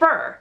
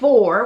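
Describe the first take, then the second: First: The vowel is a reduced 'ur' sound. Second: The vowel is a full, rounded 'or' sound. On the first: "I say fur" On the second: "with like a O in the middle"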